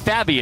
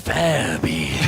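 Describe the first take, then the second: First: The name is said in a plain voice. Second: The name is said deep in the throat. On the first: The speaker calls it wrong. "it's not Fabby" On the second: The speaker calls it right. "Very guttural"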